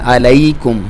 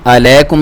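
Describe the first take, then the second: First: The middle vowel is a soft diphthong. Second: The middle vowel is a plain long vowel. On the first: The speaker calls it right. "तो इसे पढ़ना है अलैकुम" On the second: The speaker calls it wrong. "अलैकुम नहीं पढ़ना जिस तरह हम मोस्टली गलती करते हैं"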